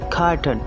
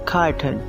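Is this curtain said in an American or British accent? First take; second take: American; American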